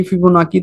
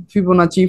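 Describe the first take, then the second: First: फिबोनाकी ending in a hard "kee" sound; फिबोनाकी, "की" वाला उच्चारण; Fibonacci with k. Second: फिबोनाची, "ची" वाला उच्चारण; Fibonacci with ch. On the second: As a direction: say फिबोनाची with a ch, fi-bo-na-chee. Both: Shown as a demonstration. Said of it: "pronunciation अलग-अलग है".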